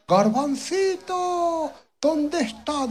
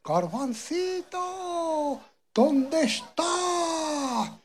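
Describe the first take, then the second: First: The father shouts for his son across the fields; father calling out. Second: Long, drawn-out call, much higher and slow; mother calling out. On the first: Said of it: "decía el papá". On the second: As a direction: call for a lost child far away, stretching every word. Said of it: "Y le decía". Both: Acted.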